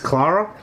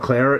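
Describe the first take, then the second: First: The name is said with a non-American vowel. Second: The name is said with an American vowel. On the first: The speaker calls it right. "it's Clara?" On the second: The speaker calls it wrong. "it's not Clara"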